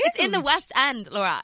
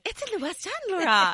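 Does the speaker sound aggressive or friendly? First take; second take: aggressive; friendly. First: The line is said in an aggressive tone. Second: The line is said in a friendly tone. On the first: The speaker seems to be scolding the listener. The speaker calls it wrong. "That sounded very aggressive" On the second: The speaker is proudly sharing good news. The speaker calls it right. "I meant to say"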